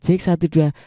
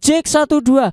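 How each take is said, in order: First: It is spoken softly and gently. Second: It is shouted loudly. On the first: "Yang soft spoken kayak gini" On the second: "ketika aku teriak-teriak tadi"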